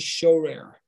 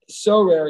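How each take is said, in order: First: The word begins with an sh sound. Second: The word begins with a plain s sound. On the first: It means to look. "he would say shorer" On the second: It means to rule. "instead of uh, sorer"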